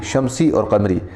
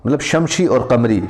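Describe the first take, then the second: First: शमसी said with a clear s, shamsi; corrected shamsi. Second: शमशी said with sh in the middle, shamshi; slip on shamsi. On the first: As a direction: correct it to शमसी with a crisp s in the middle. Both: Shown as a demonstration.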